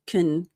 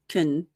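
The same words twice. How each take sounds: First: The vowel is almost gone, like 'kn'. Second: The same.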